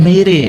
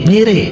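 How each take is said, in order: The two takes are said the same way.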